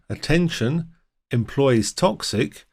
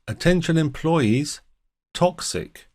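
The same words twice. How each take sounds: First: The pause comes after 'attention'. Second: The pause comes after 'employees'. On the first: The employees themselves are poisonous. The speaker calls it wrong. "If we misplace the colon" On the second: Employees are warned that something is poisonous. The speaker calls it right. "a warning to the employees about something poisonous"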